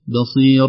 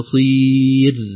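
First: The final r ends without any echoing bounce. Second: The final r ends with an echoing bounce. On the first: The speaker calls it right. "لا نقلقل الراء، نقول بصير" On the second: The speaker calls it wrong. "لا بصير، إذا مرققة غير مقلقلة"

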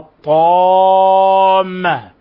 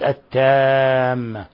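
First: The t sound is heavy and emphatic. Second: The t sound is light and plain. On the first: The speaker calls it right. "إذا قلنا الطامة" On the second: The speaker calls it wrong. "ولم نبين ما فيها من إطباق واستعلاء انقلبت التامة"

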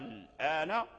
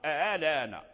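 First: The hamza becomes a long drawn-out vowel. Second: The hamza is softened, between hamza and vowel. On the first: "إما أنها ترجع ألفا فتقرأ" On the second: "وإما أنها تسهل فتقرأ"

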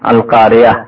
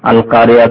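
First: The word ends softly with an h sound. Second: The word ends softly with an h sound.

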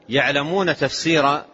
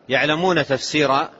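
The two takes are said the same way.

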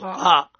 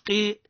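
First: The letter name is said with a heavy vowel. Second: The letter name is said with a thin vowel. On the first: The speaker calls it right. "نقولوا قاء، هذه مفخمة" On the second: The speaker calls it wrong. "نقولوش قي"

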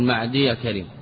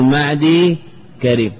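First: The y of the first word carries an a-vowel. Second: The y of the first word has no vowel. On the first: The speaker calls it wrong. "ولا تقول معدي كريم" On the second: The speaker calls it right. "فإن كان معتلا حينئذ سكنا، فنقول معدي كريم"

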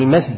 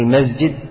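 First: The s sound is kept voiceless. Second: The s sound is voiced like a z. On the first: The speaker calls it right. "يقول المسجد المفروض" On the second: The speaker calls it wrong. "بدل ما يقول المسجد"

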